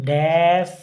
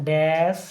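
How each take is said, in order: The two takes are said the same way.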